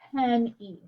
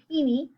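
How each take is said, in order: First: The first vowel is short. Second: The first vowel is long. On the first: The speaker calls it right. "I say" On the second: The speaker calls it wrong. "I don't say"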